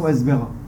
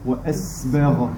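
First: The s sound is cut short without breath. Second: The s sound is held with audible breath. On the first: The speaker calls it wrong. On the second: The speaker calls it right.

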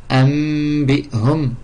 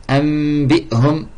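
No difference in how they are said.

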